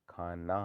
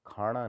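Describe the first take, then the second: First: Said in the usual way. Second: खाना said as khaaṇa; retroflex n. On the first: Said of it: "होता है". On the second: Shown as a demonstration. Teacher shows the error, खाना with ण. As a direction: curl the tongue back for ना in खाना. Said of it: "नहीं होता".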